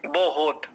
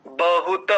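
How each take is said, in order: First: बहुत said "bo-hot", o in both syllables, t clipped; everyday "bohot" for बहुत; colloquial pronunciation. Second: बहुत said "ba-hu-ta", final ta fully voiced; careful, syllable-by-syllable "ba-hu-ta" for बहुत; correct full pronunciation. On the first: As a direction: say बहुत as "bohot" with a vowelless final t. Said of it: "यानी बा ओकार, हा ओकार और त". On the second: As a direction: sound every letter of बहुत, ending on a full "ta". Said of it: "ता पूरा है". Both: Shown as a demonstration.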